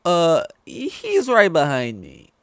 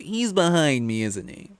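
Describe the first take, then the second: First: Drawn-out, loud, high punchline; comic deadpan. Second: High, slow mocking Kiwi-style quip; hammed-up sitcom line delivery; Joss Whedon quip. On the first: Retold or imitated. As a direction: stretch the punchline slowly and loudly. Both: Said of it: "Joss Whedon or whatever with the whole".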